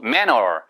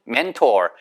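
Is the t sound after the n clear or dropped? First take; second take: dropped; clear. First: The t after the n is dropped entirely. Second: The t after the n is clearly pronounced. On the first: "manor 이렇게 하는 경우도 있어요. 아주 드물게" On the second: "mentor 이렇게 안 하고"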